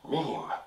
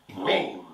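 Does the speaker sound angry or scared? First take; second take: scared; angry. First: It is said in a scared way. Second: It is said in an angry way.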